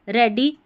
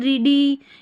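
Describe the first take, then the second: First: The first vowel is a short 'e' sound. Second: The first vowel is a long 'ee' sound. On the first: The speaker calls it right. "यहाँ पर ए पढ़ेंगे" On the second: The speaker calls it wrong. "ऐसे नहीं बोल रहे हैं"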